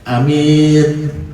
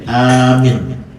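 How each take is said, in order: First: The first vowel is short, the second long. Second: The first vowel is long, the second short. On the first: "Ada minnya panjang, A-nya pendek" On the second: "ada panjang A-nya, minnya pendek"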